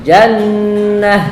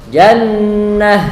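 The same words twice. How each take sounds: The two takes are said the same way.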